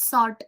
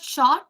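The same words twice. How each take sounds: First: "sort" said with a plain s sound at the start, no sh; correct word sort. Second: "short" said with a clear sh sound at the start, a touch louder; wrong word short. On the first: Teacher giving students the right method name, "sort" with s. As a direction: say "sort" with a clean s. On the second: Teacher warning students off the wrong word, "short" with sh. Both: Shown as a demonstration. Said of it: "But here there's a slight change".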